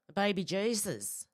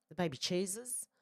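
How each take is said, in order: First: Said in the usual way. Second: Put-on The baby cheeses said with Jesus as "cheeses"; Kath and Kim joke accent. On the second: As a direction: mimic a broad Aussie TV mum saying "cheeses". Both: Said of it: "if you ever watch Kath and Kim".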